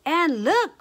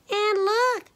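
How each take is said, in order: First: High, loud middle-sized bear cry; lightly voiced mama bear, crying out; Mama Honey Bear. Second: Very high little bear squeal; high-pitched baby bear voice; Little Honey. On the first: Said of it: "cried Mama Honey Bear in her middle-sized bear voice". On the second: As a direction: squeal it as a tiny bear cub. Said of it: "squealed little Honey in his little bear voice". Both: A narrator's reading.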